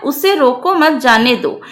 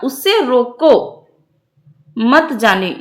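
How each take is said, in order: First: Said in the usual way. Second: Drawn-out "रोको", then a clear break before "मत"; pause after रोको. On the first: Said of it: "यहाँ पे रोकने और न जाने के अर्थ में". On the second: Shown as a demonstration. Teacher showing the comma for the stopping sense, pause after रोको. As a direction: stretch रोको slowly and stop, then begin मत. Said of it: "यहाँ पे रोकने के अर्थ में".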